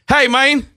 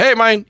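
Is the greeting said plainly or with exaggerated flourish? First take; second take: exaggerated flourish; plainly. First: It is said with exaggerated, showy flourish. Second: It is said plainly, without added flourish. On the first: The speaker is playfully clowning around. "not quite like that. Like, he didn't put extras on it like that" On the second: It is a simple, old-school greeting. "but he wouldn't say it with extras on it"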